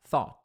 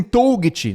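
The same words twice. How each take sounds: First: "thought" as one syllable, TH then "ought"; correct English sound. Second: "Toget" read as written, toe-guh-tchee; loud, Brazilian letter-by-letter reading of "Toget"; wrong spelling reading. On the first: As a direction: say "thought" with silent GH, rhyming with ought. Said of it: "Tenta pensar thought". ("thought" numa sílaba só, com TH) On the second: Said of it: "não, não lê assim". ("Toget" lido errado, como se escreve) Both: Shown as a demonstration.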